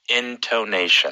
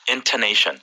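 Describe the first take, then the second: First: The word is said slowly. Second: The word is said fast.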